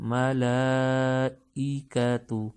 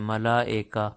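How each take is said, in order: First: The vowel after 'mala' sounds like 'ee'. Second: The vowel after 'mala' sounds like 'e'. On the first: The speaker calls it right. "ई जेर को नरमी के साथ" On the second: The speaker calls it wrong. "ईका की जगह एका पढ़ते हैं"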